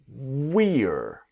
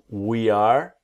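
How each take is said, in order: First: It is said as one short contracted syllable. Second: It is said as two full separate words.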